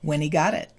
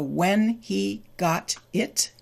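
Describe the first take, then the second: First: The words blend, with a D-like sound for T. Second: The words are said separately with a clear T.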